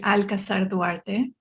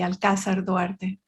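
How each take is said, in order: First: The second syllable of Alcazar is not stressed. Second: The second syllable of Alcazar is stressed. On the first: It is adapted for foreign speakers. "foreign friendly way of pronouncing it" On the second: It is the native Mexican way. "the Mexican way would have accent on the on the second A"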